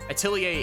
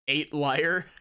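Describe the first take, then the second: First: It is said like the French word atelier. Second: It is said like the English words eight liar. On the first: The speaker calls it right. "Atelier is how you pronounce that" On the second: The speaker calls it wrong. "It is not pronounced eight liar"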